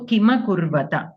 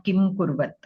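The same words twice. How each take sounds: First: "Kima Kurvata" with an audible a closing both words; complete final syllables. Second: "Kim Kurvat" stopped dead on m and t; endings cut short. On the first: Teacher models the correct reading, "Kima Kurvata" fully pronounced. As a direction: finish "Kima Kurvata" on full vowels, nothing cut. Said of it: "we have to pronounce it completely". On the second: Teacher shows the mistake to avoid, "Kim Kurvat" with halved endings. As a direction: cut "Kim Kurvat" at the consonants, no final vowels. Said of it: "not Kim Kurvat". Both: Shown as a demonstration.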